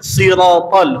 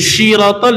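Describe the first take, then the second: First: The word begins with a plain 's' sound. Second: The word begins with a 'sh' sound. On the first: The speaker calls it right. "huruf si" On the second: The speaker calls it wrong. "jangan jadi shin"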